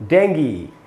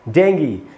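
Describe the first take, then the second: First: The word ends with an ee sound. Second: The same.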